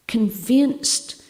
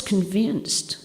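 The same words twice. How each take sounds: First: Convinced repeated higher and louder with a rising tune; insistent repeat of convinced; stress on convinced. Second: Said in the usual way. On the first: Shown as a demonstration. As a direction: lean hard into convinced, rising at the end.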